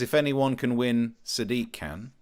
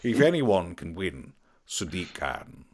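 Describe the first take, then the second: First: It is read in a plain, ordinary voice. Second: It is read in a dramatic voiceover voice. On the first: The speaker calls it wrong. "I feel like I should have pronounced it better" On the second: The speaker calls it right. "It does better with the voiceover voice"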